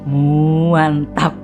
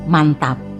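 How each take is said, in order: First: The word starts with an emphatic drawn-out 'mua' sound. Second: The word is said plainly, without extra emphasis. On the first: The speaker calls it right. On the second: The speaker calls it wrong. "Oh bukan"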